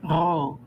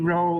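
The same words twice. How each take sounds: First: The R is made at the back of the throat. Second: The R is a soft glide without trill. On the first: "the Israelis put it back here" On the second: "American speakers tend just to say"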